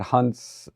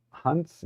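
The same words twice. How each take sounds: First: Said in the usual way. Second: "Hunt's?" asked with a sharp rising tune, unsure; questioning Hunt's. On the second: Real, not acted. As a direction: say "Hunt's?" quietly as a doubtful question. Unsure how the name is said.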